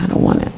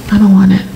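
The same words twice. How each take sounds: First: Breathless whispered refusal. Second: Louder, insistent refusal; firm refusal. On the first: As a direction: barely voice the refusal. Whispered refusal, then repeated aloud. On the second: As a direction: push the refusal out firmly. Same refusal repeated, louder. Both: Retold or imitated.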